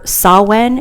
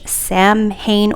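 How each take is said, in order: First: Samhain said "SAH-win", no M sound; alternative pronunciation. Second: Samhain said as it is spelt, "sam-hayn"; alternative pronunciation. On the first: Host offering another way she saw, Samhain as "sah-wen". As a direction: say Samhain as "sow-wen", with a W in the middle. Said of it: "one way I saw how to pronounce this". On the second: Host showing one way to say the deck's title, Samhain as "sam-hayn". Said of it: "saw how to pronounce this". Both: Shown as a demonstration.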